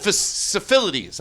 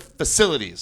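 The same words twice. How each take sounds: First: FACILITIES stumbled with a doubled syllable, fuh-suh-fil-ities; mispronounced word. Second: Said in the usual way. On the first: Shown as a demonstration. Comic admits he can't say it, garbled pronunciation. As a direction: trip slowly over FACILITIES, jumbling the syllables. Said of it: "it's like I can't say". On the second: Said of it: "I say instead of facilities".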